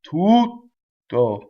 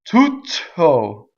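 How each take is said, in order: First: The T is a silent gap before the vowel. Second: The T bursts out with a puff of air. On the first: The speaker calls it right. "The space makes the T" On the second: The speaker calls it wrong. "nor do I put air through it like I just did"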